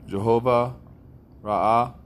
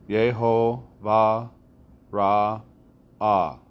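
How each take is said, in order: First: The first word begins with a J sound. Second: The first word begins with a Y sound. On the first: The speaker calls it wrong. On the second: The speaker calls it right.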